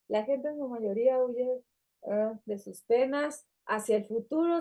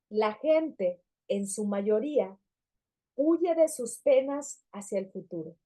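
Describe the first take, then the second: First: It is read flatly, with little intonation. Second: It is read expressively, with lively intonation. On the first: The reader does not connect with the writer. The speaker calls it wrong. "yo puedo leer internamente así" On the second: The reader connects with the writer. The speaker calls it right. "Leo internamente y externamente con entonación"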